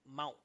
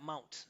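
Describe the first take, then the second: First: The T is stopped in the throat, not released. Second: The T is clearly released with a puff. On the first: The speaker calls it right. "would be a stop, like mount" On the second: The speaker calls it wrong. "Not mount"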